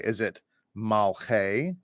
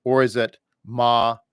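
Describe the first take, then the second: First: Malche said slowly as mal-che; slow, careful Malche; asking whether it is Malche; Malche, two syllables. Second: Maleche with an added eh in the middle; Maleche, ma-le-che; the other option, Maleche; Maleche, three syllables. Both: Shown as a demonstration. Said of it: "not really certain how to pronounce".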